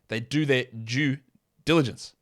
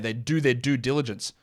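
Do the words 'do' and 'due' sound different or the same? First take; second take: different; same. First: A non-American accent; 'due' differs from 'do'. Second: An American accent; 'do' and 'due' sound alike. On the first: The speaker calls it right. "those are two different words" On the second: The speaker calls it wrong. "when you guys would say it in an American accent"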